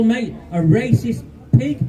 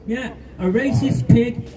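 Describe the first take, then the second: First: Said in the usual way. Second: "a racist pig" slowed right down, landing hard on "pig"; slow emphatic repeat. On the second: Real, not acted. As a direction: let "racist pig" sink in word by word. Repeats the insult slower for weight.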